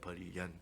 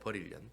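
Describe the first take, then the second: First: The second word begins with a y sound. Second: The second word begins with an n sound. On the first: The speaker calls it right. "버릴 연입니다" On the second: The speaker calls it wrong. "버릴 년이 아니고"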